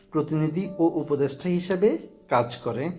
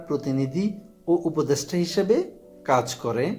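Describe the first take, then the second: No difference in how they are said.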